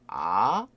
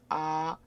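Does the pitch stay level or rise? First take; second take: rising; level. First: The pitch rises from middle to high. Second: The pitch stays high and level throughout. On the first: "아, 아 하고 올라가죠" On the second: "그러면 길게 아, 아, 이게 1성이 되겠죠"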